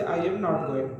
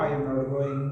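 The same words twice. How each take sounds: First: Slow, word by word example; slow, careful example sentence; slow teaching demo. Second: Said in the usual way. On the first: Shown as a demonstration. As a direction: spell it out slowly for the class. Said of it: "M के बाद not लगाओगे". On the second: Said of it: "मैं नहीं जा रहा हूँ".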